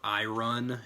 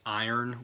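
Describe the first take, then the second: First: The r is said before the final vowel. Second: The r is said after the vowel, like eye-urn. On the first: The speaker calls it wrong. "iron is spelled I R O N, but it's not iron" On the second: The speaker calls it right. "which would be like I U R N"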